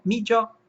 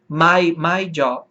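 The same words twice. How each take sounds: First: Irish "me jaw", higher-pitched; Irish-accented "me jaw"; Irish pronunciation. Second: Slow American "my" as "mai"; American-accented "my jaw"; American pronunciation. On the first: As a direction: say "me jaw" with "me" as "mee", Irish style. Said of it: "como na Irlanda". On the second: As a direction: say "my jaw" slowly, American style. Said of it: "Pronúncia americana". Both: Shown as a demonstration.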